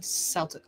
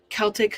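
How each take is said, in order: First: The word starts with a soft S sound. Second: The word starts with a hard K sound. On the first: "but Boston Celtic" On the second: "hard like a K"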